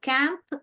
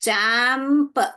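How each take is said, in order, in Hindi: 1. शब्द की शुरुआत k आवाज़ से होती है। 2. शब्द की शुरुआत ch आवाज़ से होती है। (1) "क एम्प, कैंप ... तो ये गलत है" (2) "च एम्प, चैम्प, यही करेक्ट लग रहा है"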